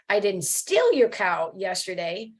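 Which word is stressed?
steal. The stress is on the word steal.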